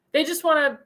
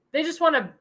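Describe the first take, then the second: No difference in how they are said.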